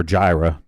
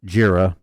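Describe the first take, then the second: First: "Jira" said as JY-ruh; alternate pronunciation. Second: "Jira" said as JEER-uh; alternate pronunciation. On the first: Co-host offers the other way of saying the software name, "Jira" as JY-ruh. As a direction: say "Jira" with a long i, like "eye". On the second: Co-host offers one way of saying the software name, "Jira" as JEER-uh. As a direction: say "Jira" with an ee in the first syllable. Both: Shown as a demonstration. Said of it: "depending on how you pronounce that".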